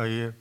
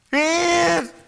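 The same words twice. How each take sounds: First: The word is said softly and mildly. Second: The word is shouted loudly. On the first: The grief is restrained and polite. The speaker calls it wrong. "Of alleen maar zo, zakdoek pakken" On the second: The person is desperate and in panic. The speaker calls it right. "Hij schreeuwde het uit, hè"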